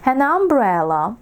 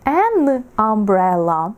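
First: The article and noun run together as one word. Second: The article and noun are said as separate words. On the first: The speaker calls it right. "Ми поєднуємо слово і артикль... наче одне слово" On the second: The speaker calls it wrong. "Не an umbrella. Так звучить негарно"

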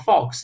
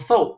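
First: It sounds like 'fox', ending in an x sound. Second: It sounds like 'foe', with no final x sound. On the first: The speaker calls it wrong. "不要读成fox" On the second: The speaker calls it right. "这个词注意它读成faux"

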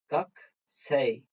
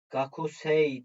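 First: The vowel after the k is dropped. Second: The vowel after the k is pronounced. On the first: "yani o k kesiliyor" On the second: "gakusei diye yazılıyor"

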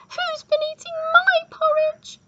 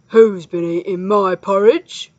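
First: It is said in a squeaky voice. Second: It is said in a growling voice.

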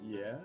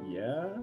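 First: It is said sincerely and plainly. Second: It is said sarcastically, implying the opposite.

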